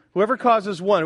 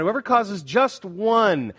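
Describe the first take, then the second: First: Said in the usual way. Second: Slow down and lean on "just one"; "just one" drawn out with deliberate weight; stress on JUST ONE. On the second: Shown as a demonstration. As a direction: hammer home "just one", holding the last word. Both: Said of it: "Why are you emphasizing that?".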